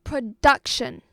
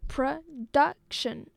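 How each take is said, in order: First: Production with a loud DUC; stress on second syllable. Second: Production in three separate slow beats; syllable by syllable. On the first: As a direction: punch the middle syllable of Production. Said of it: "The stress was". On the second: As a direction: slowly split production into pro, duc, tion. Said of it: "a three-syllable word". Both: Shown as a demonstration.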